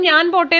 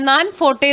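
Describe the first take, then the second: First: It starts with 'nj' and a 'p' sound. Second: It starts with 'n' and an 'f' sound. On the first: This is how mainland Malayalam speakers say it. "നമ്മൾ ഞാൻ പോട്ടെ എന്ന് പറയുന്നത്" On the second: This is how the islanders say it. "Islanders നാൻ ഫോട്ടെ എന്നായിരിക്കും പറയുക"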